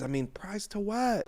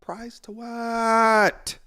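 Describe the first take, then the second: First: Said in the usual way. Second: Slow, drawn-out disbelief, higher; incredulous. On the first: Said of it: "repeated question". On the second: Real, not acted. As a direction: stretch it out in disbelief. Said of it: "repeated question, drawn out".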